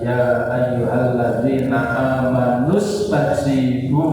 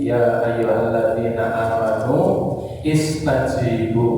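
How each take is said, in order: First: It runs amanu straight into stajibu, without pausing. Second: It pauses after amanu, then says istajibu. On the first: "Kalau mau langsung" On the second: "kalau berhenti di situ"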